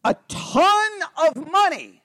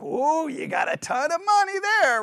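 First: High, drawn-out stress on "ton"; hyperbolic emphasis. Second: High, mock-impressed gushing; sarcastic. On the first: Teacher giving an example of hyperbole, emphatic "ton". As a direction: stretch "ton" high and big for exaggeration. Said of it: "the example they use of hyperbole". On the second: Adult to little kid showing money, sarcastic. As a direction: overdo the amazement as if humouring someone. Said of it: "I could do it sarcastically". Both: Shown as a demonstration.

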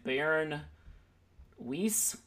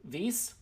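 First: Weiss? said with an English w, like "wice"; English reading. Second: Weiss? said with a German v, like "vice"; Weiss? corrected to a German v sound; German pronunciation. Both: Shown as a demonstration. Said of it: "Excuse my German accent".

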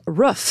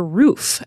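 First: "roof" with the short vowel of foot. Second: Said in the usual way. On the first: Retold or imitated. Host quoting a friend, "roof" with short vowel. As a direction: say "roof" short, close to "ruff". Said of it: "closest friends would always say". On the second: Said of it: "and roof for".

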